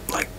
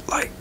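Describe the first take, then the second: The two takes are said the same way.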